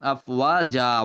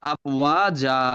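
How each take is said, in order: The two takes are said the same way.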